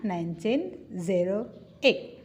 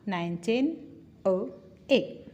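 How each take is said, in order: First: The incorrect way, spelling out "zero"; wrong year reading. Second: "nineteen oh eight" with the zero said as the letter O; year read with oh. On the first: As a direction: say the digit as "zero" in "nineteen zero eight". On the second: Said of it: "bukan nineteen zero eight". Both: Shown as a demonstration.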